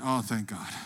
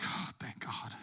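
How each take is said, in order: First: Said in the usual way. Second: Whispered relief. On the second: Retold or imitated. Relief when paramedics arrive.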